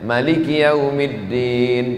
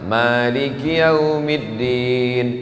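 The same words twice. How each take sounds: First: The first vowel 'ma' is kept short. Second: The first vowel 'ma' is drawn out long. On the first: This is the reading of another tradition. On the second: This is the reading used in Indonesia. "ma-nya panjang"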